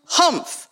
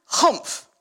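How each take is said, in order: First: Sour humph. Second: Humph. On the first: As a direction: snort out a disdainful "Humph". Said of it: "humphed a voice". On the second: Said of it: "Can you get a humph?". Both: Acted.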